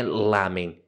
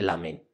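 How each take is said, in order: First: Said in the usual way. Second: "lamen" said low and soft, stressed on "men"; final-syllable stress. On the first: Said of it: "Então, não é lamen". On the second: Shown as a demonstration. Correcting the word, "lamen" stressed on the last syllable. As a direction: put the weight on the end of "lamen". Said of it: "a sílaba forte é sempre a última".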